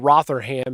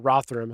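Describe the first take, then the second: First: The name is said with an American pronunciation. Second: The name is said with a British pronunciation. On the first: "I'd call it Rotherham here in America" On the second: "I think is how you say it"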